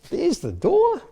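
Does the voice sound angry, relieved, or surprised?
surprised. It is said with a surprised tone. A door turned up somewhere unexpected. "and surprise"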